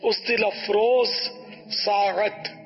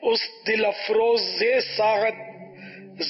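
First: Afroz runs into saat with no linking vowel. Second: An extra short e joins afroz to saat. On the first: The speaker calls it right. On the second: The speaker calls it wrong.

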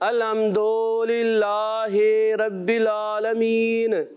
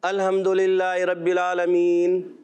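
First: The vowels are stretched out very long. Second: The vowels are kept at normal length. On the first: "بعض بچے تو اتنا کھینچتے ہیں" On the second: "تو یہ مجہول ہے"

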